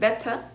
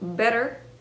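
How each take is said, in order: First: The middle T is crisp and clear. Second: The middle T is soft and relaxed. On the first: "enuncia demasiado la letra T" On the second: "better se convertiría en"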